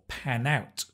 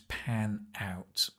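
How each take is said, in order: First: The two words are linked together. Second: The two words are said separately.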